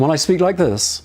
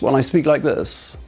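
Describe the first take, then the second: First: The voice sounds open and full from the throat. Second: The voice sounds tight and closed in the throat. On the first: The speaker wants the listener to get the message. The speaker calls it right. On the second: The speaker does not want to be understood. The speaker calls it wrong.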